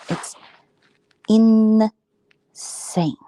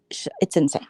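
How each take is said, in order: First: Breathy stage whisper on insane; hushed, dramatic insane; whispered emphasis. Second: Said in the usual way. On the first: Real, not acted. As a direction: lean in and whisper it.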